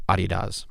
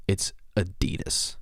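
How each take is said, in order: First: "Adidas" said as AH-tee-dahs, broad ah vowels; imitating her pronunciation. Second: "Adidas" whispered softly as uh-DEE-dus; correct pronunciation. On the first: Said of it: "I just gotta hear it again". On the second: Shown as a demonstration. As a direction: say "Adidas" with a light uh at the start and a soft -dus end. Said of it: "Which, by the way".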